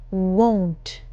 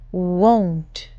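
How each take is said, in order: Both takes have the same delivery.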